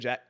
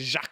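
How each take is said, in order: First: The name is said with an English pronunciation. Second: The name is said with a French pronunciation. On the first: The listener decides on their own version of the name. The speaker calls it wrong. "and I'll be like, "What's good, Jack?"" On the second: This is the name as its owner gives it. The speaker calls it right. "You gonna tell me your name is Jacques"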